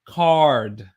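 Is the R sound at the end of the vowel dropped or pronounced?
pronounced. A strong R sound follows the vowel. "So we have a harder R sound"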